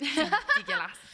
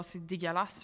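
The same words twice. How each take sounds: First: High-pitched, slow, drawn-out "dégueulasse"; exaggerated redo. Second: Low-pitched, softer disgusted remark; odd low voice. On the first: Mocking own odd voice, high drawn-out repeat. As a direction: stretch "dégueulasse" out high, making fun of yourself. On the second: Real, not acted. Judging fast-food work at McDo, odd low disgusted voice. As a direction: drop low and quiet on "dégueulasse". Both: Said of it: "pourquoi je parle comme ça?".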